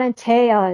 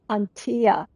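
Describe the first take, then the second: First: The name is not split into ant and tea. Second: The name is split into ant and tea. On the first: The speaker calls it wrong. "It's not Antea" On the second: The speaker calls it right. "It's like ant and tea"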